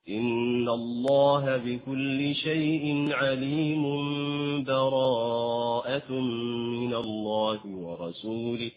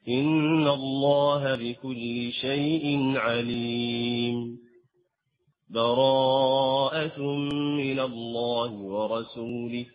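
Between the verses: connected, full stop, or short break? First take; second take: connected; short break. First: The verses run together, with n turning to m. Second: There is a brief break without taking breath. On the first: "أو أن تصل وهنا تأتي بالإقلاب" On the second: "أو أن تأتي بالسكت"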